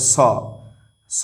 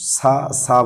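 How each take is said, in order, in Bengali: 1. স্বরটি গোলাকার, 'o'-এর মতো। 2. স্বরটি খোলা, 'a'-এর মতো। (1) "স স বলতে হবে" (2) "সা সা বলা যাবে না"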